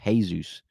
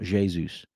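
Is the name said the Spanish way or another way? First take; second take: Spanish; other. First: The name is pronounced the Spanish way. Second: The name is pronounced a non-Spanish way. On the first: "I thought Spanish was Jesus" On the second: "not Jesus"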